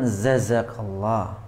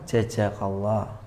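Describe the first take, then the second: First: Both of the first two consonants are z. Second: Both of the first two consonants are j. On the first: "dua-duanya zai" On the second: "dua-duanya jim"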